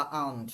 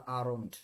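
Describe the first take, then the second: First: "আউন্ট" said aa-unt, no r; r dropped. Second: "আরন্ট" said aa-ront, r sounded; r pronounced. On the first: Teacher allowing another variant, "আউন্ট" without the r. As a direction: glide straight from aa to -unt in "আউন্ট". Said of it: "এরকম বললেও হবে". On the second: Teacher giving the preferred form, "আরন্ট" with a clear r. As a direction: sound the r in "আরন্ট", falling and lower. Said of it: "তা বললেও হবে, কিন্তু". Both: Shown as a demonstration.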